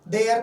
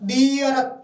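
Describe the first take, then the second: First: 'The' has a short 'uh' vowel. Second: 'The' has a long, stressed 'ee' vowel. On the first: The speaker calls it wrong. "दे अर्थ नहीं बोलेंगे" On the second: The speaker calls it right. "क्या बोलेंगे? दी अर्थ"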